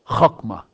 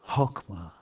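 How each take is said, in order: First: The H is a harsh guttural sound from the throat. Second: The H is a soft breathy aspirated sound. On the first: "It's actually a hard H. It's not aspirated, but it's guttural" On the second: "an aspirated H is soft"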